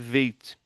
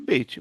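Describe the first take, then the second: First: It begins with a V sound. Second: It begins with a B sound. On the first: The letter has no dot inside it. "mas sem daguecho é veit" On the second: The letter has the dot inside it. "o beit com daguecho é beit"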